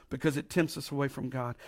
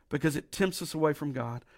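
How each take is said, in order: Both takes have the same delivery.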